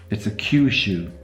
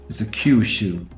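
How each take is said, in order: No difference in how they are said.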